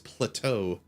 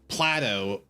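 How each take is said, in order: First: It sounds like the ordinary word plateau. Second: It sounds like the name Plato. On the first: The speaker calls it right. "but it's plateau" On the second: The speaker calls it wrong. "it makes it sound like the Greek philosopher"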